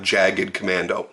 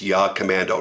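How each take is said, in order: First: The name begins with a J sound. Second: The name begins with a Y sound. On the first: The speaker calls it wrong. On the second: The speaker calls it right. "that is the way it's pronounced"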